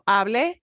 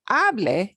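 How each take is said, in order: First: The stress is on the last syllable. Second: The stress is on the first syllable. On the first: The speaker spoke in the past. "it's got to punch the last syllable. Hable, I spoke" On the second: It is a command or a wish for someone to speak. "if I punch this part of it, hable is a command or a subjunctive"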